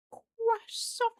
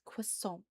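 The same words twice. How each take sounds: First: CROISSANT squealed extremely high and loud; silly croissant. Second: Said in the usual way. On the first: Shown as a demonstration. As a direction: blow it up into a silly French shriek of "Croissant". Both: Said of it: "the silly way of just saying".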